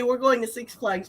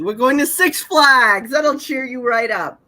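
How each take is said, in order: First: Said in the usual way. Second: Upbeat, louder, a little slower; lightly voiced cheerful Lovett. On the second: Reading Lovett cheering up the girl, lightly voiced and upbeat. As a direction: sell the treat brightly. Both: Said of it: "how come she gets to say".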